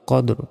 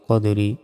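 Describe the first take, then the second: First: The word ends in a consonant sound. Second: The word ends in a vowel sound. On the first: The reading stops on this word. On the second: The reading continues without stopping.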